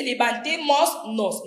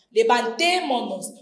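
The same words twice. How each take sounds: First: Levantémonos with an extra s before nos, like levantémosnos; teacher voicing the s in levantémonos as levantémosnos; wrong form. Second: Said in the usual way. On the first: Shown as a demonstration. Teacher showing students the wrong form, says levantémonos with an s before nos. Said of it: "No se dice". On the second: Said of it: "Se pierde la S final".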